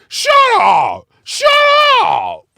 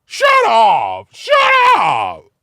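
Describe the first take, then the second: First: High, loud shouted shut up. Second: Very high, loud shout. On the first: Retelling the Seven Eleven clerk, imitated shout. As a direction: bark it like the angry store clerk. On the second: Redoing the clerk's yell, higher imitated shout. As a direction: shriek shut up like the clerk. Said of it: "I'm a little more animated now". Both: Retold or imitated.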